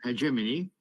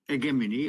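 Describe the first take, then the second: First: The word is pronounced closer to its Italian form. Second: The word is pronounced closer to its Greek form. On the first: "which is more Italian" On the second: "I'm pronouncing it closer to the Greek origin"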